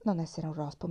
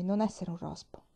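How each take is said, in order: First: Said in the usual way. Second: "non" leaned on, falling to the end; stress on non. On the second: Shown as a demonstration. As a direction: press the word "non" as the final lesson.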